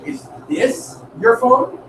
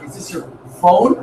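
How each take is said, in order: First: The word your carries the main stress. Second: The word phone carries the main stress. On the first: The speaker doubts the phone belongs to the listener. "That's implying, like, is this like your phone?" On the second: The speaker doubts the object is really a phone. "Like, is that really a phone?"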